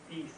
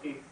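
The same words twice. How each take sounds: First: The vowel is a long E sound. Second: The vowel is a short E sound. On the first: The speaker calls it right. "it's supposed to be long E" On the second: The speaker calls it wrong. "the long E and the short E and say peace"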